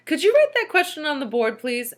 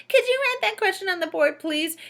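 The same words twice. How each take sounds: First: Polite pupil's request; child asking. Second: Put-on high, whiny parody of the child; mocking voice. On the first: Rondi asking the teacher, innocent polite request. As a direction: ask it innocently. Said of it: "asked Rondi". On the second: Teacher mocking Rondi's question, high whiny parody. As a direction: mimic them in a sneering squeaky voice. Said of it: "in a mocking voice". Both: A narrator's reading.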